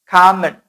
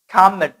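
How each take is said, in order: No difference in how they are said.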